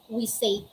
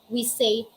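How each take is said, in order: The two takes are said the same way.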